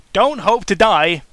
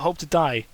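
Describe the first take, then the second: First: "Don't" punched hard, slow and louder, the rest falling; stress on Don't. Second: Said in the usual way. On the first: Acted. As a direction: hit "Don't" firmly and slow the line down. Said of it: "That's not the best phrase to use".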